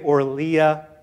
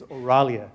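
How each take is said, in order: First: No vowel follows the R sound. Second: An 'a' vowel follows the R sound. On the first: The speaker calls it wrong. "Some people say" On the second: The speaker calls it right. "The right way to say it is"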